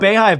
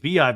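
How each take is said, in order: First: The first syllable sounds like 'bay'. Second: The first syllable sounds like 'bee'. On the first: The speaker calls it wrong. "I think I'm saying it wrong" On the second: The speaker calls it right. "I think it's Beehive"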